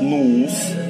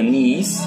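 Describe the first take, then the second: First: The vowel is a plain u sound. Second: The vowel is an i sound, like Ukrainian. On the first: This is the form used in dialects with strong u. "де сильне укання, там кажуть нус" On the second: This is the Verkhovyna form, same as Ukrainian. "є верховинський діалект, де кажуть е, так і по-українськи ніс"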